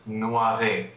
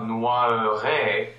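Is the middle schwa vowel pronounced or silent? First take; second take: silent; pronounced. First: The middle schwa vowel is silent. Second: The middle schwa vowel is pronounced. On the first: The speaker calls it right. "It's just noiré" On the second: The speaker calls it wrong. "not noiré with the schwa actually pronounced"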